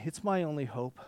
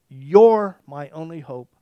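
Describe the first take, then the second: First: Said in the usual way. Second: "You're my only hope" louder and slowed, You're leaned on; fervent declaration. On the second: Shown as a demonstration. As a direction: proclaim "You're my only hope" slowly at full voice.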